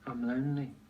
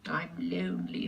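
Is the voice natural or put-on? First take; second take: natural; put-on. First: It is said in a plain, natural voice. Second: It is said in an exaggerated, put-on voice.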